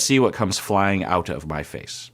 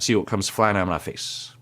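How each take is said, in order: First: The phrase is said more slowly. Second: The phrase is said quickly. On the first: The speaker calls it right. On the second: The speaker calls it wrong.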